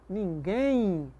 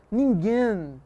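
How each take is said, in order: First: "ninguém" slowly, ending in a nasal I glide; natural I glide. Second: "ninguém" ending in a sounded N, drawn out; wrong final N. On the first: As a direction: let "ninguém" end like "ninguein", no hard N. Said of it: "o M tem som de I". ("ninguém" com som de I no final) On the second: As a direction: close "ninguém" on an N, no I glide. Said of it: "você não pronuncia". ("ninguém" com N final, pronúncia errada) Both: Shown as a demonstration.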